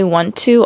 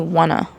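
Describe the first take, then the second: First: Both words are said fully and separately. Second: The words blend into one reduced word. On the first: "I probably do say want to often" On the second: "I also say wanna often"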